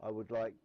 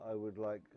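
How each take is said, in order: Both takes have the same delivery.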